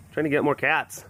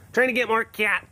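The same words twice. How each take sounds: First: Said in the usual way. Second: "Trying to get more cats" echoed higher and playful; light sing-song repeat of "Trying to get more cats". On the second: Shown as a demonstration. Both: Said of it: "repeats it".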